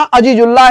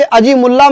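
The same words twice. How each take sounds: First: "अजीजुल्ला" as one joined word, j in the middle; correct name reading. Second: "अजी मुल्ला" split in two, with an m starting मुल्ला; misreading of the name. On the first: Teacher correcting students' reading of the name, "अजीजुल्ला" with a J. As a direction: say "अजीजुल्ला" with जु, no M sound. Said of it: "अजीजुल्ला है ये". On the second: Teacher warning students off a misreading, "अजी मुल्ला" with an M. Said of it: "इसे अजी मुल्ला मत पढ़ना". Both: Shown as a demonstration.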